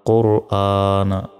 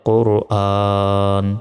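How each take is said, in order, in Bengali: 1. শব্দটি একটি হ্রস্ব স্বরে শেষ হয়। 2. শব্দটি ব্যঞ্জন n-তে শেষ হয়।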